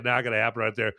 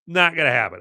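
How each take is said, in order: First: Tossed off quickly under the breath; quick aside. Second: Firm, punchy NOT; emphatic. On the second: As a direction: stress on "not", said firmly and louder. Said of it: "Okay, not gonna happen right there". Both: Shown as a demonstration.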